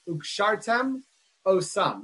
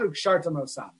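First: A short break separates the two words. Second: The two words run together as one word. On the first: The speaker calls it right. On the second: The speaker calls it wrong.

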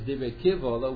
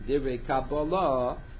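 First: The second word has a v sound. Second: The second word has a b sound. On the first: The words are complaint. "The other way to pronounce the word is Dibre Kivvalah" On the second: The words are received tradition. "So that's one way the Rishonim read Dibre Kabbalah"

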